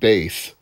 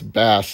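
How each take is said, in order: First: It is said like the musical term. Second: It is said like the fish name. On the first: It names the musical term. The speaker calls it wrong. "it's definitely bass because it's a musical pun" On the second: It names the fish. The speaker calls it right. "this is a fishing game, so it's bass"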